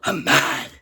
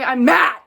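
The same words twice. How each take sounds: First: Low mad. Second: Mad. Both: Real, not acted. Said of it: "I'm already pissed".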